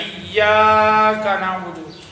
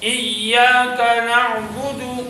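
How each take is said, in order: First: The long vowel is stretched too long. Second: The long vowel has its normal length. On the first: The speaker calls it wrong. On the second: The speaker calls it right.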